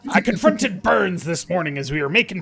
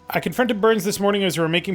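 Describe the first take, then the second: First: It is read in a put-on pirate accent. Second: It is read in an ordinary voice.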